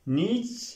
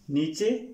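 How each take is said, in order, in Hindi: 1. यह सादी 'ch' की आवाज़ से खत्म होता है। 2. यह 'ch' की आवाज़ और एक स्वर से खत्म होता है। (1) "नीच नहीं" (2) "नीचे नहीं"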